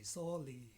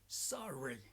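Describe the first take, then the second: First: The R sound is weak or replaced. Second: The R is a strong growling sound. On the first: The speaker calls it wrong. "don't say" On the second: The speaker calls it right. "like to make dogs growling sounds"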